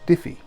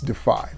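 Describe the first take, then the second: First: The name is said like 'Diffie'. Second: The name is said like 'Defy'. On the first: The speaker calls it wrong. "It is Diffie. Just kidding" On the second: The speaker calls it right. "it's Defy"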